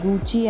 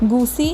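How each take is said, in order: First: The middle consonant is a 'ch' sound. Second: The middle consonant is an 's' sound. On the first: The speaker calls it right. "Correct pronunciation" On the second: The speaker calls it wrong. "ഗുസി എന്ന് നമ്മൾ ചിലപ്പോഴെങ്കിലും പ്രൊനൗൺസ് ചെയ്യാറുണ്ടെങ്കിലും"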